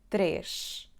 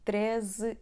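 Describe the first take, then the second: First: The word ends with an sh sound. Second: The word ends with a z sound. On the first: "Temos o som sh no fim da palavra" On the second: "a letra S vai ter o som z"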